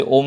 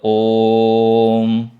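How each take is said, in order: First: Said in the usual way. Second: "ओम" held very long on one note; long drawn-out vowel. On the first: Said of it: "ओम में जुड़ रहा है". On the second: Shown as a demonstration. Teacher demonstrates the pluta vowel joining Om, long and sustained. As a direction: sustain the "ओ" steadily, closing on "म". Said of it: "लंबा खींच रहा है".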